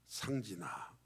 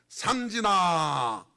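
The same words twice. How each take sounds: First: The name is called faintly and indistinctly. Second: The name is called clearly and distinctly.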